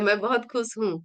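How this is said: It is said in a happy, bright way.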